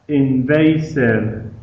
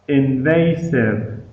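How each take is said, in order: The two takes are said the same way.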